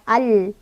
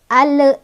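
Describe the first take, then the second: First: The l is held still with no vowel after it. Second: The l bounces off with a short vowel after it. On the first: The speaker calls it right. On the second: The speaker calls it wrong.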